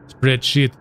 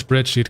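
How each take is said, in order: First: The second vowel is a short i sound. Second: The second vowel is a long ee sound.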